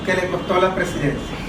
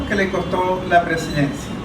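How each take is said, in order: Both takes have the same delivery.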